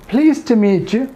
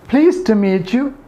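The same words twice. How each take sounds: No difference in how they are said.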